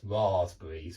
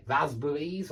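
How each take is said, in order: First: Southern English long ah in "raspberries"; lower, southern-style "raspberries"; southern British pronunciation. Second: Northern English short a in "raspberries"; northern UK pronunciation. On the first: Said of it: "In the south". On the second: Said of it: "It's an ah". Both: Shown as a demonstration.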